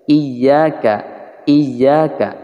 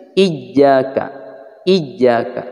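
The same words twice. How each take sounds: First: Iyyaka with the doubled y pressed lightly; lightened iyyaka. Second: Iyyaka with the doubled y pressed too hard; overstressed iyyaka. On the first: Teacher showing students the softened iyyaka. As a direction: ease off the y in iyyaka. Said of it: "Tapi agak diringankan". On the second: Teacher showing students the overpressed iyyaka. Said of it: "Tidak seperti ini". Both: Shown as a demonstration.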